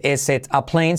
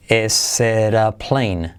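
First: "is it a plane" with a clear T in "it"; unlinked T. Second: Very slow "is it a plane" as "eseera plane"; T as soft R. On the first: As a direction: keep "it" and "a" apart with hard T. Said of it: "No se dice". ("is it a plane" con T marcada, sin unir) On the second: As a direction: stretch "is it a" into "ésera" with tapped R. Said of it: "la T de it se convierte en R suave". ("is it a plane" lento, como "ésera plane") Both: Shown as a demonstration.

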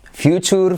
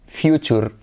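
First: Future with a y glide, fyoo-cher; correct future. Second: Future said the Spanish way, foo-choor; Spanish-style future. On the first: Teacher modelling the correct English pronunciation of future. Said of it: "lo más normal es escuchar future". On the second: Teacher showing the common Spanish mispronunciation of future. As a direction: future as Spanish speakers say it, without the y sound. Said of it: "Cómo tendemos a decir futuro". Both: Shown as a demonstration.

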